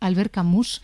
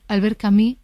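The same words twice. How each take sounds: First: The name is pronounced the Spanish way. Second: The name is pronounced the French way. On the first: The speaker calls it wrong. "y no" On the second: The speaker calls it right. "bien pronunciado"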